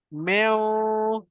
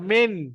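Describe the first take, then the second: First: The n is hidden in a nasal hum. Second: The n is pronounced clearly with the tongue. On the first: The speaker calls it right. "tapi meow" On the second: The speaker calls it wrong. "ingat bukan min"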